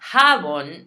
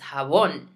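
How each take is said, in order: First: The stress is on the first syllable. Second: The stress is on the last syllable. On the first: The speaker calls it wrong. "not jabón" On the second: The speaker calls it right. "we put the emphasis on that letter. So it's jabón"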